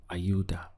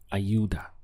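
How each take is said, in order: The two takes are said the same way.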